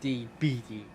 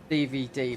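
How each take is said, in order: First: The middle letter has a b sound. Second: The middle letter has a v sound.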